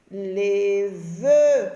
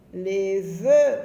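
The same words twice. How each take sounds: First: Louder, stretched "vœux" with the vowel held; drawn-out vœux. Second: Said in the usual way. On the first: Shown as a demonstration. Teacher to pupils, modelling "vœux" slowly and loudly. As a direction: lean on the "eu" sound in "vœux". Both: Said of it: "c'est le son E".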